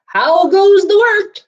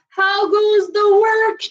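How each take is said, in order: First: Much higher, louder, slow call; farmer calling. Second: Much higher, slow called question; calling farmer. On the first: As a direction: bellow the farmer's question. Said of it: "expecting to hear". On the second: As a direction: call out from the bed. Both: Acted.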